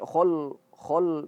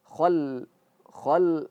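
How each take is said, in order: First: The vowel is a rounded o with a heavy l. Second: The vowel is an open a with a light l. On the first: The speaker calls it wrong. "jangan sampai khol khol ngikut dia" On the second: The speaker calls it right. "lamnya tipis"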